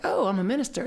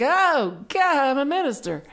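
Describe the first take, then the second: First: Lightly pleased with oneself, slightly lifted; retold self-satisfied realization; a little cocky. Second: High, loud mock panic; retold jolt of dread, pitch shooting up; terrified. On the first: New minister telling themselves the news, a little cocky. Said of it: "I was a little cocky". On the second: New minister suddenly realizing the job, terrified. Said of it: "I got real terrified".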